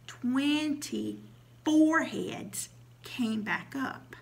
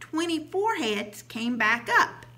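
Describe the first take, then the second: First: It is said even more slowly. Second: It is said a little slowly.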